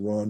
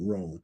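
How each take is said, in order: First: The name rhymes with 'on'. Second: The name rhymes with 'own'. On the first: This is how the speaker usually says it. "I always pronounce it Ron" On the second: This is how most people say it. "more people pronounce it Rohn"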